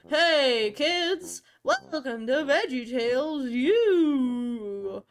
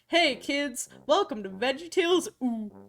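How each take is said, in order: First: It is said in a slurred, drunk-sounding voice. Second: It is read in a plain, normal voice.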